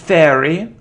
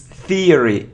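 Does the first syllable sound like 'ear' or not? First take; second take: not ear; ear. First: The first vowel is not an 'ear' sound. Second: The first vowel is an 'ear' sound. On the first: The speaker calls it wrong. "it isn't theory" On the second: The speaker calls it right. "So it's theory, ear, ear"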